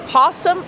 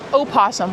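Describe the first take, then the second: First: It starts directly with the 'p' sound. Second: It starts with a vowel before the 'p'. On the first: "you pronounce the American opossum either possum" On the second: "or opossum"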